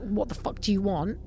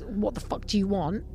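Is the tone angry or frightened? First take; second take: angry; angry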